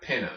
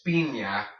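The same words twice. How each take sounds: First: Pina with short i, PIN-uh; plain N in pina; anglicized, no ñ. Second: Piña as PEEN-ya; piña pronounced the Spanish way. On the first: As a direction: pina as a mistaken American reading. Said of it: "not pina". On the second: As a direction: clear N-plus-Y in piña. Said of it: "the N plus Y sound". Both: Shown as a demonstration.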